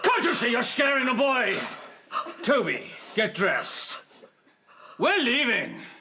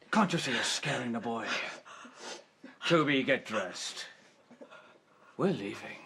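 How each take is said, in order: First: It is said with stronger anger. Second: It is said with moderate anger.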